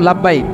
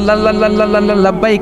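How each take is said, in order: First: The word comes out smoothly in one go. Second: The word comes out with repeated stuttered syllables. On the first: "আমরা কইতাম লাব্বাইক" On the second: "ওর তো তোতলামি"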